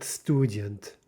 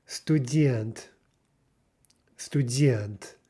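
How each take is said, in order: First: Student as STU-dyent, slow, weight on first syllable; wrong-syllable stress. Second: Student as Russian stu-DYENT, long falling second syllable; stressed final syllable. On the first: Teacher showing the mistake to avoid, first-syllable stress. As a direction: hit the start of student, weak ending. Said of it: "Not student". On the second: Teacher modelling a Russian word, emphatic final-syllable stress. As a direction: land firmly on the end of student. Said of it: "nail down that stress". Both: Shown as a demonstration.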